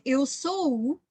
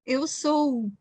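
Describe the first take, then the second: First: The O vowel is drawn out long. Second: The same.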